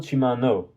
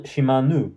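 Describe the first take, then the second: First: "Shimano" ending in an oh sound; Shimano pronunciation. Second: "Shimanu" ending in an oo sound; Shimanu pronunciation. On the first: Servant correcting her mispronounced name, "Shimano" ending in -noh. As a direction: say "Shimano" with final -no, like know. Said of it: "not Shimano". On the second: Servant giving her name to Kurapika, "Shimanu" ending in -noo. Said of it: "my name is Shi-, not Shimanu". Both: Acted.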